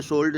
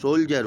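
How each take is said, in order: First: "सोल्ड" said as sold, with the L sounded; "सोल्ड" as a plain sold, the mistaken way; wrong spelling pronunciation. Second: "सोल्जर" said soljer, the D softened to a J sound; "सोल्जर" the right way, soljer; correct pronunciation. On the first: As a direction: read "सोल्ड" as it is spelt, L and D clear. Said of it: "सोल्ड नहीं होता". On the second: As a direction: say "सोल्जर" with a J in the middle. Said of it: "इसमें भी एल silent रहता है". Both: Shown as a demonstration.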